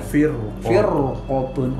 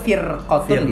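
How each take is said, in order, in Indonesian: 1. Huruf r-nya tebal, dengan bibir membulat. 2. Huruf r-nya tipis dan ringan. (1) "kudu monyong dia" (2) "bisa karena dia tarkik"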